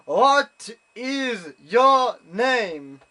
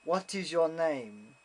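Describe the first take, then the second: First: Very slow, high, booming shout, word by word; shouted repeat question. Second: Slow, deliberate judge imitation; slow questioning. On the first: Retold or imitated. Judge to unresponsive German visitor, exasperated mock shout. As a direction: bellow it as if to someone who won't understand. He didn't respond. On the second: Judge questioning a German visitor, slow and deliberate. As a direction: space out each word like an official.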